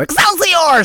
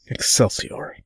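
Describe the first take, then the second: First: The word is said in a bright, gleeful tone. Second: The word is said in a subdued, somber tone. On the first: "sort of gleefully go" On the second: "You're getting really somber with these Excelsiors"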